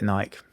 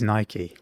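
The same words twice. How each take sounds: First: The name is said the way it reads. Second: The name is said like the Greek goddess. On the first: This is the common UK way of saying it. The speaker calls it wrong. "a lot of people in the U K particularly call it Nike, just because that's phonetically that's how it reads" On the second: This is the name of the goddess of victory. The speaker calls it right. "but it, it is Nike"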